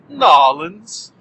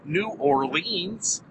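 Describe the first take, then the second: First: The name is squeezed into two quick syllables. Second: Every syllable of the name is clearly pronounced. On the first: "Or, if you prefer" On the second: "really enunciating each and every word, every letter within those two words"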